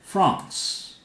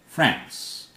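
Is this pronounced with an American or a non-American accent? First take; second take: non-American; American. First: It is said with a non-American pronunciation. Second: It is said with an American English pronunciation.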